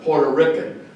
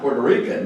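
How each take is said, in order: First: The first syllable sounds like 'por'. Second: The first syllable sounds like 'pwer'. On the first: It is a derogatory term. "the derogatory term" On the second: It is the standard name.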